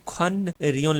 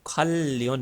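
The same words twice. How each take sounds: First: खन रियोन said as written, N and R kept apart; spelling pronunciation. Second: खल लियोन with a held double L; Korean assimilated sound. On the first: Teacher shows learners the word as written, spelling pronunciation. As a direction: say खन रियोन with a separate n, then r. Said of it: "अब ये खन रियोन नहीं रहेगा". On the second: Teacher shows how the word changes, Korean pronunciation. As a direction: turn the n-r into one long L in खल लियोन. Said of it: "अब ये change हो जाएगा". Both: Shown as a demonstration.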